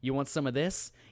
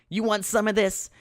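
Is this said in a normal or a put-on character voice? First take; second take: normal; put-on. First: It is read in an ordinary reading voice. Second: It is said in a silly character voice.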